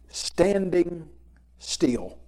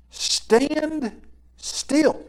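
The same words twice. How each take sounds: First: Said in the usual way. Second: "stand still" lifted high and drawn out, rising on "still"; "stand still" sung out high and held, like a call from scripture; emphatic stand still. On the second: Shown as a demonstration. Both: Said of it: "title of this lesson is Stand Still".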